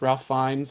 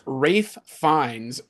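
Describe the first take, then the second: First: The first name is said with an L sound. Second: The first name is said without an L sound. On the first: The speaker calls it wrong. "I'm reading R A L P H" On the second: The speaker calls it right. "I guess the L is silent"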